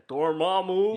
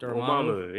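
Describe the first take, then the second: First: Benedict Cumberbatch voice. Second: Said in the usual way. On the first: Retold or imitated. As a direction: say Dormammu like Cumberbatch, rolling and theatrical. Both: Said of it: "you have to say it like Benedict Cumberbatch".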